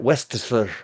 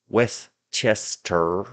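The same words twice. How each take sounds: First: Some syllables of the name are reduced or dropped. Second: Every letter and syllable of the name is pronounced. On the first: The speaker calls it wrong. "all you Brits and Massachusetts people that call that Westchester" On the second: The speaker calls it right. "We read all the letters and say all the syllables"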